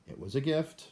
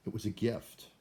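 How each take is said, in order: First: GIFT rising at the end like a question; higher pitch, climbing on GIFT; questioning excuse. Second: Said in the usual way. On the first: Pretend. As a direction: try the excuse out, voice lifting high on "gift". Rehearsing an excuse to give.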